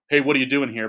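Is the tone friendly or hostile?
hostile. It is said in a suspicious, hostile tone.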